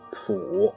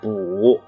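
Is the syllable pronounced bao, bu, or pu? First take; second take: pu; bu. First: The syllable is pronounced pu, starting with p. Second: The syllable is pronounced bu, starting with b. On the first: "普或者补字" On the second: "有的念补"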